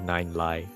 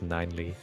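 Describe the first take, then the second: First: The final syllable sounds like 'lie'. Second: The final syllable sounds like 'lee'. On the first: The speaker calls it wrong. "not Nine Lie" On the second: The speaker calls it right. "It's pronounced Nineley"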